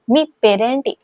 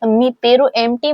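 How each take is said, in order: First: The last two words run together into one word. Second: The last two words are said as separate words. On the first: The speaker calls it right. "मी पेरेंटी असं म्हणायचं" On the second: The speaker calls it wrong. "म्हणायचं नाही"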